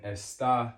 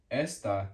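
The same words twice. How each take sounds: First: "está" as es-TAH; "está" with its weight on TAH; stress on last syllable. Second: "esta" as ES-tah; stress on first syllable. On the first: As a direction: lean on the final syllable of "está". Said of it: "just changes the stress". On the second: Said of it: "which of course is the first syllable". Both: Shown as a demonstration.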